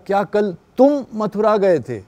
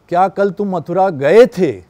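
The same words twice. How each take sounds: First: The stress falls on the word 'tum'. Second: The stress falls on the final verb 'gaye the'. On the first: It asks whether this person or someone else went. "तुम ही गए या कोई और चला गया" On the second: It is unclear whether the trip happened at all. "सिर्फ यहाँ पे बोल दिया गए थे"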